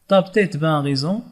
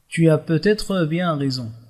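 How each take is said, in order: First: Syllables are swallowed, giving a shortened clipped form. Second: Every word is articulated carefully and linked fully. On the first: It is a casual, familiar register. "كيبلع الكلمات ديالو" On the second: It is a formal, elevated register. "On articule bien les mots, on respecte les liaisons"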